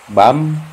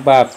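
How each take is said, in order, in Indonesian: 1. Suku kata ini berakhir dengan bunyi m. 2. Suku kata ini berakhir dengan bunyi p. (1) "biap ini berubah menjadi m, bukan p lagi ya" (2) "kalau begini tetap dibacanya bab"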